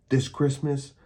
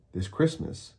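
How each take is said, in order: First: This punched high on "This Christmas"; a gloating "This Christmas" with a raised "This"; stress on THIS. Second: "Christmas" stressed, falling at the end. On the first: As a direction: lean hard on the word "This". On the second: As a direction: land on "Christmas" and let it drop. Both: Acted. Villain gloats about his plan.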